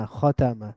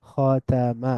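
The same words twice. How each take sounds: First: খতামা as one joined word, kho-ta-ma; blended together. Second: খতামা slowly as kho, ta, ma; syllable by syllable. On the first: Teacher reading joined-up, খতামা blended into one word. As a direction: run খতামা together with a fall. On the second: Teacher breaking down the word, খতামা syllable by syllable. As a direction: split খতামা into three drawn-out syllables. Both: Shown as a demonstration. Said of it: "একটু মিলিয়ে মিলিয়ে পড়ব".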